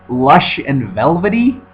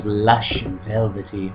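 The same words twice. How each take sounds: First: Slow, "Lush and velvety" rising in disbelief; incredulous repeat. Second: Slow, hushed, savoring read of "Lush and velvety"; mock sultry review quote. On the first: Retold or imitated. Scoffing at a critic's phrase, slow disbelieving rise. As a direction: throw the phrase back, baffled and mocking. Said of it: "They're not really saying anything". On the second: Quoting a gushing review to viewers, slow mock-sultry. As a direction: drawl "Lush and velvety" out like ad copy. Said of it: "IndieWire says".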